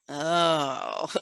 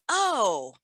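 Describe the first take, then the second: First: It sounds warm, longing and affectionate. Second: It sounds like a sudden realization. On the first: The speaker loves or craves something. "that is is speaking to love" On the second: Something was just remembered. ""I just remembered something,""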